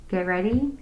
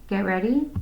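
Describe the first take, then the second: Both takes have the same delivery.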